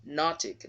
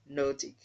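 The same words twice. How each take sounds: First: "nautic" with short open O, "NOT-ik"; isolated "nautic" said as "NOT-ik"; correct pronunciation. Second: "nautic" as "NOH-tik", long O; wrong pronunciation. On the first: Teacher isolating the stressed syllable, correct pronunciation. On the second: Teacher contrasting the form to avoid, wrong pronunciation. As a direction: round "nautic" into a clear "oh" vowel. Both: Shown as a demonstration. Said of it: "not nautic".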